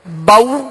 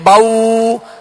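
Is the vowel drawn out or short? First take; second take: short; drawn out. First: The vowel is short and soft. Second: The vowel is drawn out long. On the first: The speaker calls it right. "बगैर खींचे" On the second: The speaker calls it wrong. "ना ही इसको खींचेंगे"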